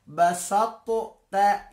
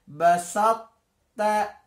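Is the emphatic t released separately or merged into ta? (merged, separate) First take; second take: separate; merged. First: The emphatic t is released separately before ta. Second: The emphatic t merges into a single ta. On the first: The speaker calls it wrong. "tidak perlu dibaca basattu ta, ini salah" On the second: The speaker calls it right. "Tapi dibacanya cukup basatta"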